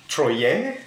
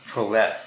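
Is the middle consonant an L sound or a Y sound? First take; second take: Y sound; L sound. First: The middle consonant is a Y sound. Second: The middle consonant is an L sound.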